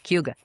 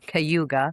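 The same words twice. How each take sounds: First: The word is said quickly and compressed. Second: The word is said slowly and fully.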